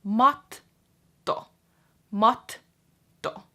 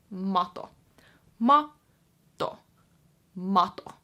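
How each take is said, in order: First: Matto with a pause on the T, said louder; matto, held T; held double T. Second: Mato with a quick, short T; single T mato. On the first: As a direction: stop on the T in matto. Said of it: "the pause is between the two T's". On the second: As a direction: say mato with no pause. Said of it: "And then rug is matto". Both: Shown as a demonstration.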